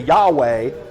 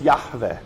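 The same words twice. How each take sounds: First: The name is pronounced in an American way. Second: The name is pronounced in a non-American way. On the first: The speaker calls it wrong. "Americans say Yahweh" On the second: The speaker calls it right. "but it's Yahweh"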